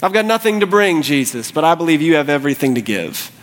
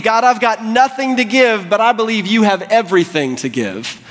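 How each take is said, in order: First: Subdued plea. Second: High, impassioned prayer; fervent plea. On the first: Leper's prayer repeated, settling down. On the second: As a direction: cry out to God in earnest faith. Leper's prayer, first take at full pitch. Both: Acted.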